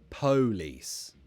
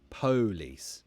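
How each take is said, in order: First: The stress is on the first syllable. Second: The same.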